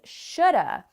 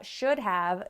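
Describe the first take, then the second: First: Have is reduced to a weak 'uh' vowel. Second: Both words are said fully and separately. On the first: "what people actually say is shoulda" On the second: "first we have should have"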